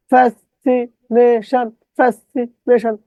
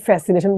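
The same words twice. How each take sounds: First: ফ্যাসিনেশন slow, broken into "fas-si-ne-shan"; distorted spelling pronunciation. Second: ফ্যাসিনেশন said smoothly as one word; usual pronunciation. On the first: Teacher drilling the spelling, chopped pronunciation. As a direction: chant ফ্যাসিনেশন in separate chunks, higher. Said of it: "কিন্তু এখানে কি বললাম?". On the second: Teacher recalling how we say it, normal pronunciation. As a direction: run ফ্যাসিনেশন together without breaks. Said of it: "এটার উচ্চারণে কিন্তু বলি ফ্যাসিনেশন". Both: Shown as a demonstration.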